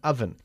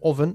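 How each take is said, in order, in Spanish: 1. La primera vocal es un sonido de 'a'. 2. La primera vocal no es un sonido de 'a'. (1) "sino oven. El sonido de la vocal es A" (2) "No oven"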